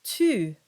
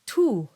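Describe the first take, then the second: First: Tu with the rounded French u close to e. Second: Tu with a rounded oo; tu as in Latin, oo sound. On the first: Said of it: "but in French it's". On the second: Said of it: "in Latin it's tu". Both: Shown as a demonstration.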